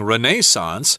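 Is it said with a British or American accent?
British. It is said the British English way.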